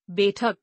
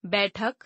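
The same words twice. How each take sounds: First: बैठक with narrow e, "bethak"; mispronounced. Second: Said in the usual way. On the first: Shown as a demonstration. Teacher showing an e error, mispronounced with narrow e. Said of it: "अशुद्ध". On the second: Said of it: "शुद्ध".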